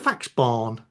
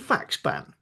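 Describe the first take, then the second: First: The last syllable has a long 'barn' vowel. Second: The last syllable has a short 'ban' vowel. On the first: The speaker calls it wrong. "I'm not going to say it's it's it's a fax barn" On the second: The speaker calls it right. "which is how I would pronounce it"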